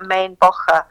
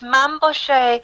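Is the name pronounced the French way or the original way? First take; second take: original; French. First: The name is said with its original German-style pronunciation. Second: The name is said with a French pronunciation. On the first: This is the name as it would originally have been said. "I think he's of German heritage, so I think it's like Main Bocher if you're saying his name" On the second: He is presented as a French couturier. "it's Mabouchet when he's being a French couturier"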